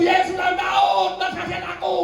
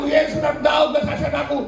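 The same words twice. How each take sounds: First: Crying out. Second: Said in the usual way. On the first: Acted. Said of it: "dia teriak terus". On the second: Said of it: "Seperti Bartimeus berseru padaku".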